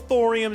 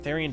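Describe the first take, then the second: First: The first vowel sounds like 'or' in 'torn'. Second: The first vowel sounds like 'ee' in 'here'. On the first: The speaker calls it right. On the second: The speaker calls it wrong.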